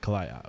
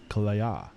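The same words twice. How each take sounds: First: The name is said with a plain English pronunciation. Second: The name is said with a Thai-style pronunciation.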